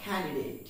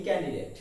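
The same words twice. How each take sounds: First: ক্যান্ডিডেট with a breathy K at the start; correct pronunciation. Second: ক্যান্ডিডেট with a hard unaspirated K and short E; common mispronunciation. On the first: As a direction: say ক্যান্ডিডেট as "KHAN-di-date". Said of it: "কিন্তু উচ্চারণটি হবে". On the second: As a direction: say ক্যান্ডিডেট as "kan-di-det". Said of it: "আমরা এর উচ্চারণ করে থাকি". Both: Shown as a demonstration.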